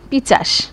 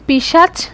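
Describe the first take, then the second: First: The ch sound comes before the s sound. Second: The sh sound comes before the ch sound.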